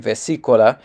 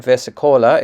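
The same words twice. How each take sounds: First: "vesicola" with the stress on "si", as ve-SEE-co-la; corrected syllable stress. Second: "vesicola" with the stress on "co", as ves-i-COH-la; wrong-syllable stress. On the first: Player correcting the tutorial's word, "vesicola" stressed on "si". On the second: Player owning up to a tutorial mistake, "vesicola" mis-stressed on "co". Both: Shown as a demonstration. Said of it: "I put the stress on the wrong syllable".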